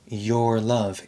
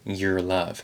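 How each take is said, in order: First: The word 'your' has a strong, full vowel. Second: The word 'your' has a relaxed, reduced vowel. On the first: It sounds more formal and proper. "a very strong your" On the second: It sounds relaxed and natural. "the more relaxed and natural your"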